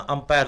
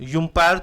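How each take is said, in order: First: The word begins with an 'uh' sound. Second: The word begins with a 'yoo' sound. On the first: The speaker calls it right. "यू का अगर उच्चारण आ निकलता है" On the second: The speaker calls it wrong. "यूम्पायर तो नहीं बोलते ना"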